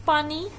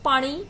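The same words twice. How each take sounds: First: Said in the usual way. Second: Second "पानी" said as paaṛi, n turned retroflex; incorrect pronunciation. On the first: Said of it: "न को क्या बोलते हैं". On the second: Shown as a demonstration. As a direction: curl the n of "पानी" into a flapped ṛ. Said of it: "ड़ा बोलते हैं". ("पानी" में न की जगह ड़ बोलें)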